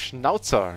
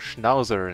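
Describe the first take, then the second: First: It is said in a non-American pronunciation. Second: It is said in an American pronunciation.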